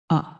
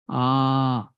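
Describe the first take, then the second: First: The vowel is held very briefly. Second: The vowel is held about twice as long. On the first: "If you use one unit of time to pronounce that letter, then it becomes hrasva" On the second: "if you use two unit of time"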